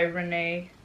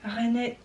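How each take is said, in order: First: The name is said with an English accent. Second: The name is said without an English accent.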